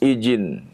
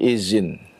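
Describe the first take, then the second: First: The middle consonant is a j sound. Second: The middle consonant is a z sound. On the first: "Atau menjadi jim" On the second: "kebanyakan berubah menjadi zai"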